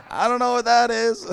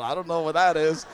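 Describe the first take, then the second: First: Higher, louder mock-innocent denial; exaggerated know-nothing protest; feigned innocence. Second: Said in the usual way. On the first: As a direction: play innocent, pitching the denial up.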